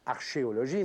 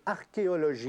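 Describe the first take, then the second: First: The 'ch' is said like 'sh', as in archer. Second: The 'ch' is said like a hard 'k' sound. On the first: The speaker calls it wrong. "ça ne se prononce pas archéologie" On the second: The speaker calls it right. "mais archéologie"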